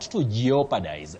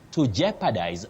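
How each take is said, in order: First: The 'o' after 'je' is pronounced. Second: The 'o' after 'je' is not pronounced. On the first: The speaker calls it wrong. "common but wrong" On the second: The speaker calls it right. "that O is silent"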